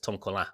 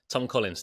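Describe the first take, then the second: First: The name is said in a French style. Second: The name is said in plain English style.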